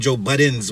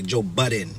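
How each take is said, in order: First: The name ends with an added s sound. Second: The name ends without any s sound. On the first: The speaker calls it wrong. "I used to say Joe Buttons with the S" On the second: The speaker calls it right. "I'm gonna say it right today"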